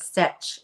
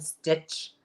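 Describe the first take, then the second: First: "stitch" said as "stetch"; Scottish lady's pronunciation. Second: Said in the usual way. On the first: Retold or imitated. Contrasting the Scottish lady's word with her own, imitated pronunciation. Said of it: "She says stitch instead of stitch". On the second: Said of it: "instead of stitch".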